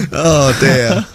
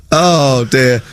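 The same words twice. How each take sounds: The two takes are said the same way.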